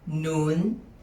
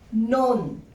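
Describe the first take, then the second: First: The word is said with a high tone. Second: The word is said with a falling tone. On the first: "High tone" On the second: "Falling tone"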